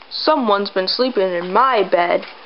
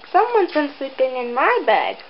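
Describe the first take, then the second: First: It is said in Papa Bear's great big voice. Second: It is said in Mama Bear's middle-sized voice.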